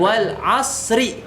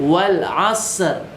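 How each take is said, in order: First: It ends with an added i vowel. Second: It ends on the r with no vowel. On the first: The speaker calls it wrong. "berhenti tetapi harokat terakhirnya dibaca" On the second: The speaker calls it right. "ketika kita waqaf, ... itu harokatnya tidak dibaca"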